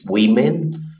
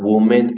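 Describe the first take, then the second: First: It sounds like the plural form, women. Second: It sounds like the singular form, woman. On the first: The speaker calls it right. "it's women" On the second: The speaker calls it wrong. "The plural is not woman"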